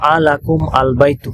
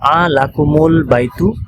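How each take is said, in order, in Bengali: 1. শব্দ দুটি আলাদাভাবে বলা হয়, মাঝে কোনো যোগকারী স্বরধ্বনি নেই। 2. একটি যোগকারী 'u' স্বরধ্বনি শব্দ দুটিকে যুক্ত করে। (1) "এখন পড়া যাচ্ছে না" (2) "মিলিয়ে পড়ার জন্য"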